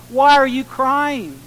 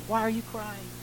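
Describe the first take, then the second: First: Loud, raised-pitch, forceful question; emphatic questioning. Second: Hushed, quick aside of a question; soft questioning. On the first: Jesus as gardener asking Mary, loud emphatic questioning. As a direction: lift it up and project it strongly. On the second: Angels asking weeping Mary at the tomb, soft questioning. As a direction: drop right down and ask softly. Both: Acted.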